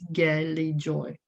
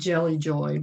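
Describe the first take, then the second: First: The first word starts with a hard G sound. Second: The first word starts with a soft J sound. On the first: The speaker calls it right. "but it is" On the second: The speaker calls it wrong. "I was calling it"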